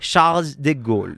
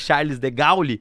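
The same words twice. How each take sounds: First: The name is said with a French-style pronunciation. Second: The name is said with a Brazilian Portuguese pronunciation. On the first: "gostei da sua pronúncia. ... fala de novo" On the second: "ou que a gente vai chamar de"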